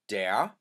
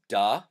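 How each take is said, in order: First: The word ends with an r sound. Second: The word ends without an r sound. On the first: "The masculine is der" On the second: "sometimes pronounced as da, depending who your Pennsylvania Dutch speaker is"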